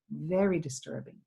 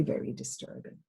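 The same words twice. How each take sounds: First: Said in the usual way. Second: Soft unvoiced whisper on very disturbing; whispered emphasis. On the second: Real, not acted. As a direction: drop to a hush as if it hurts to say. Repeating for emphasis.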